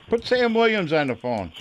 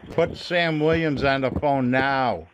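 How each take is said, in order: First: Said in the usual way. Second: Slow, firm demand ending on a drawn-out "now"; insistent demand. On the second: Real, not acted. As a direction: space it out and stretch "now".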